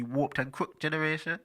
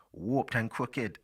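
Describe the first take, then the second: First: "crooked" said as crookt, higher-pitched; "crooked" rhyming with booked, pitched up; one-syllable crooked. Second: Slow "crooked" as crook-id, in a put-on accent; "crooked" in two syllables, slowly and affected. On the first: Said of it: "do you say". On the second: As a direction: draw it out, sounding the -ed of "crooked". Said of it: "went into that accent there". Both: Shown as a demonstration.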